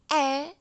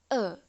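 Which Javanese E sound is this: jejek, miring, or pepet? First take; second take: miring; pepet. First: The vowel is the E miring sound. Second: The vowel is the E pepet sound. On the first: "E miring E" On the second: "dan E pepet E"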